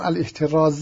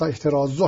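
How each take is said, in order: First: The word ends with a short 'a' vowel. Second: The word ends with a short 'u' vowel. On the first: The speaker calls it wrong. "الاحتراز نیست، فتحه نیست" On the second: The speaker calls it right. "احترازو هست، اون ذمه است"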